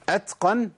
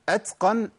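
First: An s-like hiss follows the t. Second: The same.

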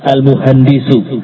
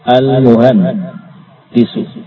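First: The word is said smoothly without a break. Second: The word is broken in two with a break. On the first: The speaker calls it right. "dibaca Al-Muhandisu" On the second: The speaker calls it wrong. "Al-Muhan Disu dibaca Al-Muhandisu"

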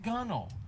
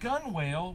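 First: The second syllable is a reduced 'nel'. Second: The second syllable is a full 'whale'. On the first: The speaker calls it right. "when you actually pronounce it gunnel" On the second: The speaker calls it wrong. "last week I said gun whale"

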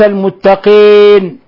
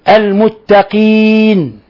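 First: The i vowel sounds muddied, not pure. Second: The i vowel sounds pure and clear. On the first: The speaker calls it wrong. "وليس المتقين" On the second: The speaker calls it right. "إخلاص الكسر لابد منه"

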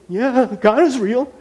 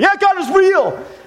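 First: It is said in a scared, timid way. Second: It is yelled loudly and insecurely.

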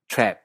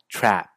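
First: The vowel sounds close to the Spanish 'e'. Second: The vowel is said with a more open mouth. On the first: "Australia y Nueva Zelanda, la vocal se hace aún más abierta, sonando más o menos parecido a nuestra E en perro" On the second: "Hacia Estados Unidos y en inglés británico estándar, es una vocal más abierta"

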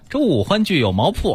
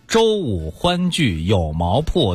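First: It is said in a regional dialect accent. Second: It is said in standard Mandarin pronunciation. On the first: "您也可以换个方言试试啊" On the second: "普通话是周五欢聚有毛铺"

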